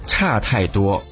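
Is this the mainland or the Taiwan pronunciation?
mainland. It uses the mainland reading of the first syllable. "在我们内地呢会说差太多"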